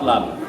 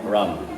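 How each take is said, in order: First: The word begins with an L sound. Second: The word begins with an R sound. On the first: The speaker calls it wrong. "not lam" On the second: The speaker calls it right. "which we call ram"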